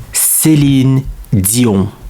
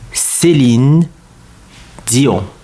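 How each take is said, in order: First: It is said with a European French accent. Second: The same.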